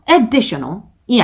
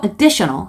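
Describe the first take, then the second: First: The stress is on the first syllable. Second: The stress is on the second syllable. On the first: The speaker calls it wrong. "아니고" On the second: The speaker calls it right. "뒤쪽에 두 번째 강세가 들어갑니다"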